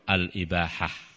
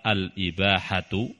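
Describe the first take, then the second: First: The word ends in a clipped 'ah' sound. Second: The word ends with a full 'tu' syllable. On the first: This shortened form keeps the verse meter even. "jadi tidak dibaca dengan adanya titik" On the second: This is the full grammatical reading. "mestinya dibaca apa? Al-ibahatu"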